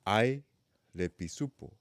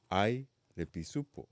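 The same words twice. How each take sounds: The two takes are said the same way.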